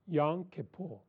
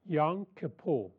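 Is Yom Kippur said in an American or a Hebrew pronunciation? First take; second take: Hebrew; Hebrew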